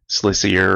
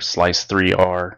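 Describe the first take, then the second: First: It is said with three syllables, slicier. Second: It is said as slice, three, R. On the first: "I'm not going to say" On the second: "I'm not going to say"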